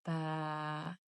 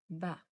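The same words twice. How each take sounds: First: Ba with the a held long; long vowel baa with alif. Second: Ba with a short clipped a; short fatha on ba. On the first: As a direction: stretch the a in ba slowly. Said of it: "The long sound is ba". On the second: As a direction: say ba quickly, short vowel. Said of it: "This is short sound". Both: Shown as a demonstration.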